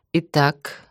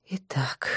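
First: Said in the usual way. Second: Softer whispered repeat; whispering. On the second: Acted. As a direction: trail off into a whisper.

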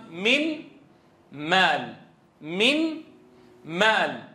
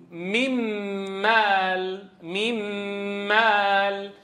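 First: "من" and "مال" said apart, "من" lifted, "مال" falling; separated example. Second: "ميم مال" as "mimmm-maal" with a long hummed m; merged into meem. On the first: Teacher drills students word by word, separated example. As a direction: split it in two, raised "من", then a falling "مال". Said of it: "هل نطقنا النون؟". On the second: Teacher leads students saying it along, long held meem ghunna. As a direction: hold the doubled m, then draw out "مال". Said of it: "قولوا معي". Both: Shown as a demonstration.

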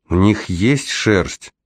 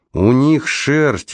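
First: Slow, wondering question; hesitant question. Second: High, drawn-out enticing answer; enticing confirmation. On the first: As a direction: ask slowly, tempted but unsure. Девочка колеблется, переспрашивает. (медленно и неуверенно переспрашивая) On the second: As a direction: confirm it slowly, pitched well up, to tempt her. Раймонд с восторгом подтверждает, уговаривая. (заманчиво, нараспев, высоким тоном) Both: A narrator's reading.

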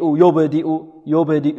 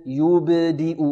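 First: "يبدئ" said as yo-bedi, with a slack o; first syllable of "يبدئ" opened to yo instead of yu; wrong vowel on ya. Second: "يبدئ" said softly as yu-b-di with pure oo; full damma on ya. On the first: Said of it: "لا نقول يبدئ". (نطق "يبدئ" بضمة ناقصة تميل إلى o) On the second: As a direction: round the first vowel of "يبدئ" fully, bounce the ب. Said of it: "والمحافظة على ضم الياء". (نطق "يبدئ" بضمة خالصة وقلقلة الباء) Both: Shown as a demonstration.

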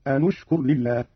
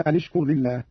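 First: أن اشكر linked as anu-shkur; Qalun reading. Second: Said in the usual way. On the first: Shown as a demonstration. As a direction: damma on the nun of أن before اشكر. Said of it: "بضم أولى الساكنين وهو النون هكذا". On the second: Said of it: "قرأ قالون بضم أولى الساكنين".

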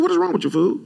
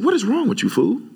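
First: Much higher, incredulous repeat; preacher repeats his rebuke to the barber, pitched way up; retold outburst. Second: Put-on high, rising retort at the boy; preacher retells scolding his barber, high and incredulous; retold outburst. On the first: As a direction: hit it even higher, exasperated. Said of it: "That's like what I said". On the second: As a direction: snap it out high, in disbelief. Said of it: "I'm not exaggerating".

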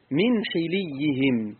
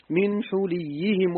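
First: من حليهم said slowly with ḥi, a kasra on the ḥa and a doubled ya; kasra reading demo. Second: من حليهم said slowly with ḥu, a damma on the ḥa and a doubled ya; Hafs reading demo. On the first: Teacher demonstrating the second reading to students, slow. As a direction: draw out من حليهم as ḥiliyyihim, slow and clear. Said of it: "وقرئ بكسر الحاء للإتباع". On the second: Teacher showing students the Hafs reading, slow and careful. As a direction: spell out من حليهم as ḥuliyyihim, slow and deliberate. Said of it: "بضم الحاء والتشديد". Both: Shown as a demonstration.

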